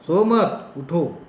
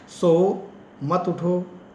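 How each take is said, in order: First: "सो मत" together, break, then "उठो"; slow, loud "सो मत", then separate "उठो"; pause after मत. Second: "सो" alone, break, then "मत उठो" together; pause after सो. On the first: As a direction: join "मत" to "सो", pause before "उठो". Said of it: "तुम मत सो, उठ जाओ". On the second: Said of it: "सोते रहो, मत उठना". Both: Shown as a demonstration.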